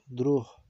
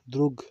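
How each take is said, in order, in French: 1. Il se prononce à la manière ukrainienne. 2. Il se prononce à la manière russe. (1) "mais prononciation légèrement différente" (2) "Exactement pareil qu'en russe"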